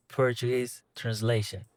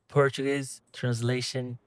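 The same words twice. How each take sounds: The two takes are said the same way.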